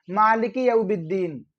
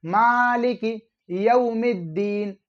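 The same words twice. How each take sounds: First: यौमिद्दीन misread as "yaubiddeen"; b in place of m. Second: Slow मालिकी यौमिद्दीन with long vowels and a clear m; careful model reading, मालिकी held long, m in यौमिद्दीन; correct m sound. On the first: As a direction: say यौमिद्दीन with a b where the m belongs. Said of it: "मीम की जगह वो बा को पढ़ते हैं". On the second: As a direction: say "yaumiddeen" with m in यौमिद्दीन, stretched out. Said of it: "मिद्दीन है". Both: Shown as a demonstration.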